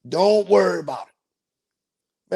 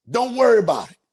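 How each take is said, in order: First: Lazy, slow, easy reassurance; slow drawn-out reassurance. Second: Said in the usual way. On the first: Shown as a demonstration. Slow teasing reassurance to a worried passenger. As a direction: stretch every word out slowly. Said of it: "repeated slowly, drawn out". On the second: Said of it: "repeats reassurance".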